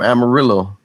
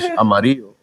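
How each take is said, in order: First: The word is pronounced with English-style sounds. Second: The word is pronounced with Spanish sounds. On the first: It names the Texas city. The speaker calls it wrong. "I hate Mexicans in Texas that say" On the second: It names the color yellow. The speaker calls it right. "what color is this crayon in Spanish?"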